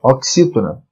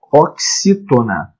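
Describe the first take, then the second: First: Said in the usual way. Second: "oxítona" drawn out slowly; slow term introduction. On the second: Shown as a demonstration. Teacher introduces term, then repeats it. ("oxítona" devagar, bem articulado)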